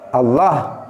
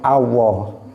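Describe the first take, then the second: First: The middle l sound is cut short. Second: The l sound is replaced by a w. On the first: "dibaca pendek" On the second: "lamnya diganti wawu"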